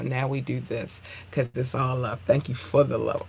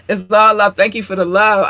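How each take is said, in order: First: Said in the usual way. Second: Loud gushing thanks. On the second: Acted. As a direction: say it again much louder, beaming. Repeats it louder, gushing.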